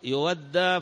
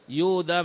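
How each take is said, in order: First: The word has a doubled consonant in the middle. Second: The first syllable has a long u vowel. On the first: It refers to paying off a debt. The speaker calls it wrong. "أما يودى فمعناه من الأداء" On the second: It refers to blood money being paid. The speaker calls it right. "يودى من الدية"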